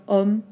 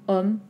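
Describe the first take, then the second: Both takes have the same delivery.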